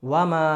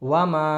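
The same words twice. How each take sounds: No difference in how they are said.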